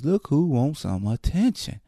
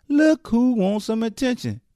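First: Said in the usual way. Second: Higher sing-song mock; mocking taunt. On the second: Shown as a demonstration. Host taunting the attention seeker, higher mocking sing-song. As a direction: tease her like a schoolyard taunt.

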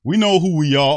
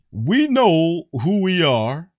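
First: Loud, high mocking read-out; mocking quote. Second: High, loud, drawn-out mock quote; slow mocking repeat. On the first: Fan reads player's statement back in loud, high mockery. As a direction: blurt the quote out in mock indignation. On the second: Host repeats player's quote for ridicule, slow and loud. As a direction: stretch each word out mockingly. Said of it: "Let me say that again".

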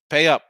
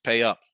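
First: Higher, much louder pay up; escalated shouted pay up; shouted demand. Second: A firm first demand; firm pay up. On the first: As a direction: shout it the second time. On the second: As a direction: pay up, said firmly and a bit louder. Scolding bettors to pay. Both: Real, not acted.

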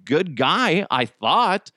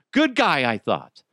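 First: Said in the usual way. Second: Sarcastic. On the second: Real, not acted. Repeating it sarcastically to the audience about Stokely.

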